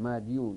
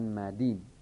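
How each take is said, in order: First: The word keeps the full '-yun' ending. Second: The word is shortened to end in a long 'i'. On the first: This is the unchanged form used by one tribe. "اعتلال و اعلال در کار نیست، یعنی نه قلبی میکنند نه نقلی میکنند نه حذفی میکنند، اینجوری تلفظ میکنند" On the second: This is the changed form used by most speakers. "ولی غیر اونها اینا اعلال میکنند، مثلا مدیون میگن مدین"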